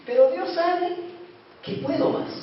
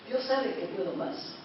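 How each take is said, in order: First: Said in the usual way. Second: Quiet repeat. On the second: Shown as a demonstration. Repeats the line much softer.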